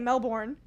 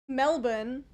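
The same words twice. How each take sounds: First: The r sound in the word is pronounced. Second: The r sound in the word is dropped. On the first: The speaker calls it right. "You're supposed to say Melbourne" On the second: The speaker calls it wrong. "But she was saying Melbourne, but without speaking"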